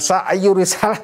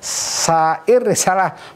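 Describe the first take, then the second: First: The first word has a y sound before r. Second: The first word has no y sound before r. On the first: The speaker calls it wrong. "bukan sa'yur risalah" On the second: The speaker calls it right. "kalau dibacanya sa'ir risalah"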